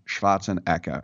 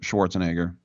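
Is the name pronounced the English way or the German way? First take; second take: German; English. First: The name is said with German pronunciation. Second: The name is said with English pronunciation.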